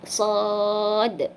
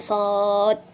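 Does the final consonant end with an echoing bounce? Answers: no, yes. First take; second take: yes; no. First: The final consonant ends with an echoing bounce. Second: The final consonant stops without an echoing bounce. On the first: The speaker calls it right. "sod kolkolahkan" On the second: The speaker calls it wrong. "bukan sod"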